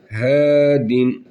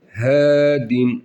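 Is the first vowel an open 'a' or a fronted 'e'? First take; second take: fronted e; fronted e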